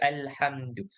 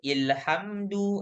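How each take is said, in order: First: The word begins with an 'a' vowel. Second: The word begins with an 'i' vowel. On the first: The speaker calls it right. "kita akan baca alhamdu" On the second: The speaker calls it wrong. "kita tak baca ilhamdu"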